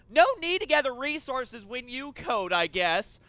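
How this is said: It is said like an angry kid who lost.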